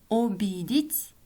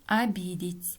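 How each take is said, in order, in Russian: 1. Первая гласная звучит как «о». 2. Первая гласная звучит как «а». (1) "Пишем" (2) "произносим"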